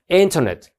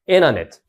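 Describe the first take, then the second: First: The T after the n is clearly pronounced. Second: The T after the n is dropped.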